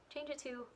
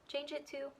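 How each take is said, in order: Both takes have the same delivery.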